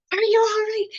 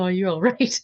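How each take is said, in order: First: Loud, high-pitched mock yell; mom's yelling, imitated loud and high; retold yelling. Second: Said in the usual way. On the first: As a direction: yell it like an alarmed mother. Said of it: "my mom was yelling at me". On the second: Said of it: "And she was saying".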